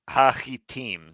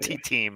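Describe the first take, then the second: First: The middle consonant is a throaty ch sound. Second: The middle consonant is a plain t sound. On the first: The speaker calls it right. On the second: The speaker calls it wrong.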